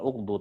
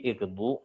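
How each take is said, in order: First: The word begins with a 'u' vowel. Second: The word begins with an 'i' vowel. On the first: The speaker calls it wrong. "Bukan uqdu" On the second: The speaker calls it right. "tapi iqdu"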